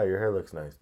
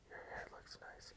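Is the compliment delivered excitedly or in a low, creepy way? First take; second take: excited; creepy. First: It is said with open, excited enthusiasm. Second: It is said in a low, falsely casual way. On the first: A friendly, harmless compliment. The speaker calls it right. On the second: An unsettling, too-intimate advance. The speaker calls it wrong. "Don't say"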